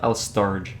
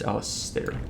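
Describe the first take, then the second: First: The name ends with a 'j' sound. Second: The name ends with an 'air' sound. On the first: The speaker calls it wrong. "It's not Alistarge. Like, it can't be Alistarge" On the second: The speaker calls it right. "I assume it's Alistair"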